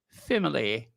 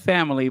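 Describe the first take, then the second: First: The word is said in a posh, highbrow way. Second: The word is said in a plain, everyday way. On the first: The speaker calls it right. "that is highbrow when you say family" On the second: The speaker calls it wrong. "not family"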